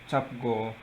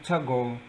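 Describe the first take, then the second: First: Both syllables are said fully and separately. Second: The syllables are run together quickly into one.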